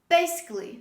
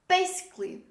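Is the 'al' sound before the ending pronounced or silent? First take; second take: silent; silent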